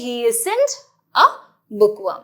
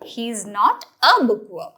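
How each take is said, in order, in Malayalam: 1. 'is not' എന്ന വാക്കുകൾ 'isn't' എന്ന് ചുരുക്കി പറയുന്നു. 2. 'is not' എന്ന വാക്കുകൾ പൂർണ്ണമായി പറയുന്നു.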